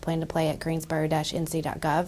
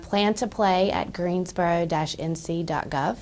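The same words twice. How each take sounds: First: It is said at normal speed. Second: It is said more slowly.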